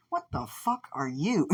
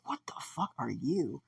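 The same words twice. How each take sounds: First: High, slow, incredulous question; appalled disbelief. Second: Half-whispered, incredulous question; hushed disbelief. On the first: Fighter facing a weird bird creature, high incredulous voice. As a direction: pitch it up and draw it out, aghast. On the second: Fighter facing a weird bird creature, hushed and aghast. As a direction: drop to a soft, breath-only gasp of words. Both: Acted.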